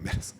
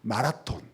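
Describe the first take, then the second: First: It is said with English-like vowels, me-reo-seon. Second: It is said with Korean loanword vowels, ma-ra-ton. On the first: The speaker calls it right. "메러선이라고 발음해야 된다고" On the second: The speaker calls it wrong. "마라톤 마라톤을 이런, 이런 무식한 녀석들"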